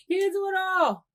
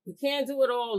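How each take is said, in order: First: High, louder, knowing voice; emphatic sassy aside. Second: Said in the usual way. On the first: Real, not acted. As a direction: tell the ladies straight, pitched up. Restated to the ladies after "excuse me.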